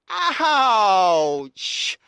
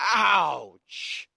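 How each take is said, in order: First: It is said more loudly. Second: It is said more quietly.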